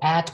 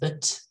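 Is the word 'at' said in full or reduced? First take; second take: full; reduced. First: The word is said in its full form. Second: The word is said in a weak, reduced form.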